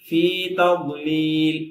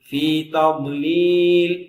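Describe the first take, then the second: Both takes have the same delivery.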